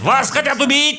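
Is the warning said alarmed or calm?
alarmed. The warning sounds urgent and alarmed. The danger is treated as serious. The speaker calls it right. "Вместо того, чтобы сказать"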